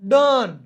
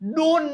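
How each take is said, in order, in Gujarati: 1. સ્વર uh જેવો સંભળાય છે. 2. સ્વર oh જેવો સંભળાય છે. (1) "ઓ નો ઉચ્ચાર અ જેવો પણ થાય છે" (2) "ડોન નહીં"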